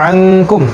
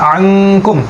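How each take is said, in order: No difference in how they are said.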